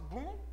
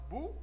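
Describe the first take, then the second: First: The vowel is nasalized before the M. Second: The vowel is plain and not nasalized. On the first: The speaker calls it wrong. "Eu não faço bum" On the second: The speaker calls it right. "eu faço bu"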